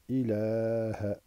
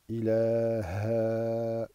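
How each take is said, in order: First: The final vowel is short, not drawn out. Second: The final vowel is drawn out long. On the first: The speaker calls it right. "mais c'est ilaha" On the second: The speaker calls it wrong. "Ça n'est pas ilaha"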